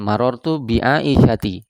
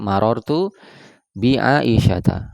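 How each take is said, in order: First: The name ends with an 'i' vowel. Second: The name ends with an 'a' vowel. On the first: The speaker calls it wrong. "Jadi bukan marartu bi Aisyati. Salah ya" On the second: The speaker calls it right. "Yang benar adalah"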